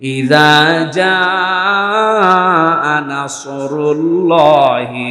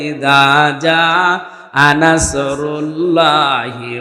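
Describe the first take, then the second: First: The s in nasr is heavy and full. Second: The s in nasr is light and thin. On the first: It speaks of help coming. The speaker calls it right. "সোয়াদ মুগল করে বলবেন" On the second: It speaks of an eagle coming. The speaker calls it wrong. "সবাই এভাবে বলবে"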